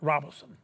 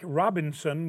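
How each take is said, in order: First: The name has no n sound in the middle. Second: The name has an n sound in the middle.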